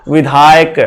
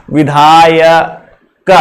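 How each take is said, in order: First: Said in the usual way. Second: विधायक stretched out slowly, syllable by syllable, so the आय sound is heard; slow pronunciation demo. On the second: Shown as a demonstration. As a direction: draw out विधायक slowly to let the आय come through. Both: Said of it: "अब इसको उच्चारण करो".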